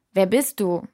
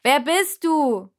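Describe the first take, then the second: First: Said in the usual way. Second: Slow, much higher, louder shout. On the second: A narrator's reading. Shouting the question into the giant's ear, loud and slow. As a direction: cup your hand and yell it into his ear. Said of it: "schirmte mit der Hand meine Stimme ab und rief".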